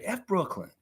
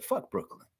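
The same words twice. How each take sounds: First: Said in the usual way. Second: A light take on Masai saying "Fuck Brooklyn". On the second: Retold or imitated. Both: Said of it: "Say it like Masai would say it".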